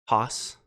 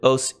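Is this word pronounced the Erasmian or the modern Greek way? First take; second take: Erasmian; modern. First: It is said in the Erasmian style. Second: It is said in the modern Greek style. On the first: "if you're using uh, Erasmian pronunciation, it's hos" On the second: "but I pronounce it os"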